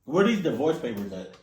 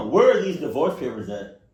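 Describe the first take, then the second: First: Said in the usual way. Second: Loud, insistent second ask; louder repeated demand. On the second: Acted. Demanding divorce papers after a "huh?", louder and insistent. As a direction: raise it on the repeat, punching WHERE.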